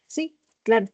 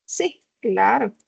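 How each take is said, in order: First: Sincere, plain "Sí, claro"; agreeing. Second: Slow, mocking "Sí, claro"; sarcástico. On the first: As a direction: say "claro" as if you truly agree. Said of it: "con un tono que indica que él está de acuerdo". (tono de acuerdo) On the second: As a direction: drag out "claro" with scorn. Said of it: "Aladino contesta en un tono sarcástico". (tono sarcástico) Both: A narrator's reading.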